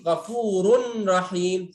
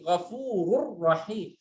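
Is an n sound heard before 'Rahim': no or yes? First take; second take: yes; no. First: An n sound is heard before the r. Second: The n merges fully into the r. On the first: The speaker calls it wrong. "Enggak ada lagi Ghafurun Rahim. Salah" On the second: The speaker calls it right. "enggak ada nun lagi"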